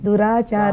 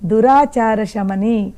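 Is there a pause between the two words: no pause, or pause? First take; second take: pause; no pause. First: There is a pause after the first word. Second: The two words run together without a pause. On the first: The goddess is called wicked. The speaker calls it wrong. "విడతీస్తే ఏంటవుతుందంటే దురాచార అని వి- విడతీసి ఆగితే" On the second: The goddess removes our bad habits. The speaker calls it right. "విడతీయకుండా కలిపితే"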